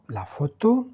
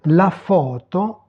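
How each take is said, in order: First: Said in the usual way. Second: "La photo" slowly as Italian, stressed long first o; teacher modelling "La photo" slowly in Italian; Italian pronunciation demo. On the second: Shown as a demonstration. (prononcer « La photo » lentement, à l'italienne) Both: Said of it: "prononcer les mots".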